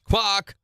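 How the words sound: It is said in a British accent.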